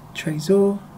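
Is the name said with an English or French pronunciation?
English. It is said with an English-style pronunciation.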